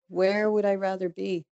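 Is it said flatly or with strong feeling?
strong feeling. It is said with more emotion.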